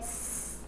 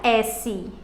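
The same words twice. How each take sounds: First: Only a hissing s sound is made. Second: The letter is said by its full name. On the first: The speaker calls it right. "o som da letra S" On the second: The speaker calls it wrong. "Não é S"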